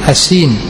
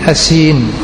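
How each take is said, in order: No difference in how they are said.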